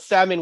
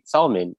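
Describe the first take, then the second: First: The L sound is left out of the word. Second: The L sound is pronounced in the word. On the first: The spelling does not match the sound. "If it's salmon, why the hell is the L there?" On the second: The word is read the way it is spelled. "we read it, right? So like the Filipino side"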